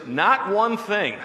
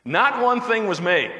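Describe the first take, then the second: First: "not one thing" said slowly, leaning on "one"; slow emphatic "not one thing", "one" loudest; stress on one. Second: "Not one thing was made" with a real laugh running through it; amused, laughing retake of "Not one thing was made". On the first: Shown as a demonstration. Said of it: "it literally is". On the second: Real, not acted. Laughs right before and through it.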